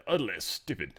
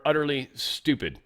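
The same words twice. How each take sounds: First: Low, soft mock-British voice; British accent. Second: Said in the usual way. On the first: Host imagines the spokesman's quote, in a British accent. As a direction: put on a cool British accent, quietly. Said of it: "he wouldn't say it British". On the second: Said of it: "I hope he said it, like, cool".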